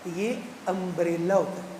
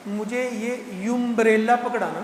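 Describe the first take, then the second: First: امبریلا said umbrela with a clean open u at the start, slowly; correct pronunciation. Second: یمبریلا said with a y sound at the start, yumbrela, slowly; wrong pronunciation. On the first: Retold or imitated. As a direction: retell the children correcting it as امبریلا. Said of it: "یہ یمبریلا نہیں ہوتا ہے". (بچوں کی طرح امبریلا درست تلفظ سے) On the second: Shown as a demonstration. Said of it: "کیا بولا میں نے؟". (یمبریلا کو جان بوجھ کر غلط، یمبریلا بول کر)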